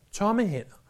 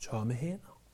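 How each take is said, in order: First: Said in the usual way. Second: "Tomme hænder" dropped much softer and lower, almost to himself; hushed answer. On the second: Shown as a demonstration. Pastor answering his own question to the congregation, hushed and low. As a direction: let "Tomme hænder" fall away softly and low.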